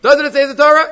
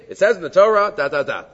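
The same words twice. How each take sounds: First: Loud, high-pitched question held up through "Torah"; challenging question. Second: Firm statement, starting raised and stepping down after "Torah"; plain statement. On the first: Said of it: "worse to say it as a question". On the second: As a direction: state it as fact, then let it fall away on "da, da, da". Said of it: "better just to make a statement". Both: Shown as a demonstration.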